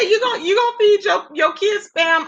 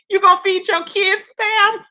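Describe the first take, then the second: First: Mock-shouted question; retold outraged cry. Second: Higher, laughing through the question; can't believe anyone would; giggling retold outrage; laughing disbelief. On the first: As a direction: yell it the way she did. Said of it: "when she said". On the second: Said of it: "She was like".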